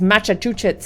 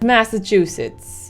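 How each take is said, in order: First: The word is pronounced in a garbled, distorted way. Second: The word is pronounced in the ordinary way.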